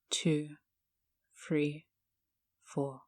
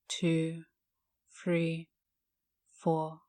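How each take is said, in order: Both takes have the same delivery.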